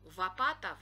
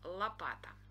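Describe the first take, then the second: First: The word starts with a V sound instead of L. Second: The word starts with a clear L sound. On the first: The speaker calls it wrong. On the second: The speaker calls it right.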